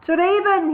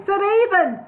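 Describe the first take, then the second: First: Higher, louder formal address; loud declaiming. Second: High, louder proclamation; loud declaiming. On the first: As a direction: proclaim the title grandly. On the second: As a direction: call it out grandly across the rocks. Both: Acted. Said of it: "he declaimed loudly".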